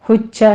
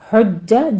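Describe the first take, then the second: First: The j sound has a hissing sh-like quality. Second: The j sound is clean without any hiss. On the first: The speaker calls it wrong. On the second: The speaker calls it right.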